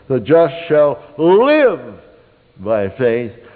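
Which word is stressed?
live. The word "live" carries the stress. "the second time, you'd underline "live,""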